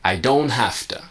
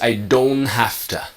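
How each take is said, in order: First: It is said quickly with the T dropped. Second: The same.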